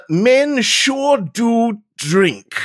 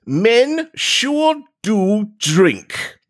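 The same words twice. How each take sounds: First: Slow, weighty reading of the note; slow dramatic reading. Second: Very slow, solemn reading of the note; slow dramatic reading. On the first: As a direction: read each word slowly and gravely. Reads the note aloud slowly. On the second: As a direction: read it slowly, like evidence. Rereads the note slowly. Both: Pretend.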